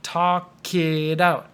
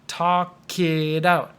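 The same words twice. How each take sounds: First: The words run together like one word. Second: The words run together like one word.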